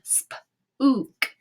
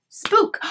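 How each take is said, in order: First: "Spook" split into sp, long oo, k; sounded out. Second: Said in the usual way. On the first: Shown as a demonstration. Teacher trying the oo sound, "Spook" in pieces. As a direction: tap out "Spook" in separate sounds. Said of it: "let's try the oo sound". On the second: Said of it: "and say it".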